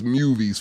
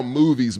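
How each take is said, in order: First: Movies said as MYOO-veez; childhood mispronunciation. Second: Said in the usual way. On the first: Shown as a demonstration. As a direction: put a y glide into movies, "myoovies". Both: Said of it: "I used to call movies movies".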